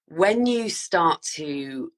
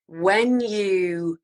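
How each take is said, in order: First: Said in the usual way. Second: Whispered when you, as if sharing a secret. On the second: Real, not acted. Whispered take before voiced repeat.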